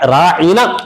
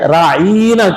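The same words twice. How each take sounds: First: The middle vowel is short and plain. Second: The middle vowel is drawn out long. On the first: Please look after us. "राईना के बजाय" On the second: Our shepherd. "आइन जेर ई को खींच कर उसमें या मिलाकर राईना कहते थे"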